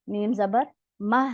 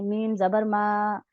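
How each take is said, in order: First: The final vowel is kept short. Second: The final vowel is drawn out long. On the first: The speaker calls it right. "मीम जबर मा है सिर्फ" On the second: The speaker calls it wrong. "लोग हरकत को वैसे खींच के पढ़ते हैं, तो ये बहुत गलत है"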